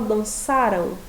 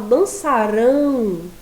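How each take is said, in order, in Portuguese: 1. A sílaba tônica é a segunda. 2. A sílaba tônica é a última. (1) "qual que é a sílaba tônica? O sa" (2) "já é a última sílaba que é a mais forte"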